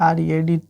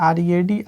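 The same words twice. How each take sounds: No difference in how they are said.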